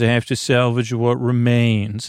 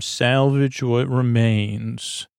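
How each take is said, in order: First: Said in the usual way. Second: Slow, relishing salvage what remains; savoring the phrase. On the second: Shown as a demonstration. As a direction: linger over each word of salvage what remains. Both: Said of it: "That's a really nice term".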